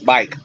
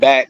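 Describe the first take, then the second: First: The vowel glides like 'ai' in 'bike'. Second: The vowel is a short flat 'a' sound. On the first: This is how people down south say it. "It's bike" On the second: This is not how people down south say it. "It's not back"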